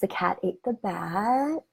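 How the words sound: The sentence trails off at the end.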